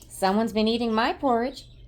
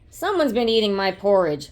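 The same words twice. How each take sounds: First: It is said in an upset, crying voice. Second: It is roared in a loud, deep voice.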